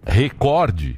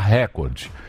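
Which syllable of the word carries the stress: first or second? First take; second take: second; first. First: The stress falls on the second syllable. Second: The stress falls on the first syllable. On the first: The speaker calls it right. "ao invés de falar recorde" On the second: The speaker calls it wrong. "ele fala recorde"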